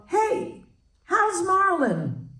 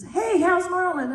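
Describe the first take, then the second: First: Higher, slow, cheery question; Shirley casually asking about Rita's long-dead ex, cheery and high; imitating Shirley MacLaine. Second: Higher cheery question; Shirley's question repeated for the punchline, cheery; imitating Shirley MacLaine. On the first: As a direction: ask it brightly, oblivious. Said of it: "And she said". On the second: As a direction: repeat it brightly. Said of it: "And she says".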